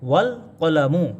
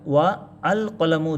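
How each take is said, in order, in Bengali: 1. 'ওয়া' সরাসরি 'ল'-এর সঙ্গে যুক্ত হয়, কোনো অতিরিক্ত স্বরধ্বনি ছাড়া। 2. 'ল'-এর আগে একটি আলাদা 'আ' স্বরধ্বনি উচ্চারিত হয়। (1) "সরাসরি ওয়াওটা কি করলো, এই যে লামকে ধরলো" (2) "এইবার কিন্তু আর ওয়া আল কলামু উচ্চারণ করলাম না"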